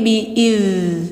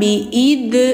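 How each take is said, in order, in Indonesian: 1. Konsonan akhirnya adalah bunyi yang mengalir terus. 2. Konsonan akhirnya adalah d pendek yang terhenti. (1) "tapi bi iz. Rokhwah sifatnya mengalir" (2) "jangan bi id"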